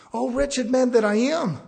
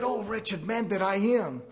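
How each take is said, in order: First: Lamenting Paul, loud. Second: Humble lament. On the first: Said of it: "He didn't say". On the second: Paul confessing his weakness, slow lament. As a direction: sigh it out like a broken man. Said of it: "he said". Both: Retold or imitated.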